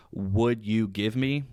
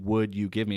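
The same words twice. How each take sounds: First: Slow filler phrase. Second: Said in the usual way. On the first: Shown as a demonstration. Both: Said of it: "instead of saying".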